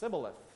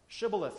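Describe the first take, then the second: First: The word begins with an s sound. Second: The word begins with an sh sound. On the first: The speaker is an outsider from another tribe. The speaker calls it wrong. "Their dialect didn't allow for them to say that S or that sh sound" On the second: The speaker belongs to the local group. The speaker calls it right. "say Shibboleth for us"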